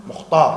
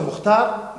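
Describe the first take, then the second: First: Mukhtar said the way locals do; local pronunciation. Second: Mukhtar with the way others say it; other pronunciation. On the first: Teacher gives the correct local way of saying Mukhtar. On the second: Teacher sets the local way of saying Mukhtar against another. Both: Shown as a demonstration. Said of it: "no decimos Mukhtar".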